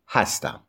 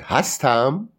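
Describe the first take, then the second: First: Said in the usual way. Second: "هستم" rising at the end; questioning tune. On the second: Shown as a demonstration. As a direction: ask "هستم" with an upward lift. (لحن سوالی «هستم»)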